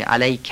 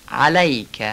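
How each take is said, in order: First: علیک with a stretched a; wrong take. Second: علیک with a guttural ع and a short a; علیک with a guttural ع and an unstretched a; correct ayn. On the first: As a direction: demonstrate the mistake in علیک. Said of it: "غلطه". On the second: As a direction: say علیک with a clear Arabic ع. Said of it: "علیک نشه". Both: Shown as a demonstration.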